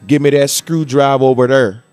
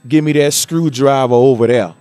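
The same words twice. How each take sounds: First: It is said in a Midwest accent. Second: It is said in an Alabama accent.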